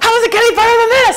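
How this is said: It is said in an excited, delighted tone.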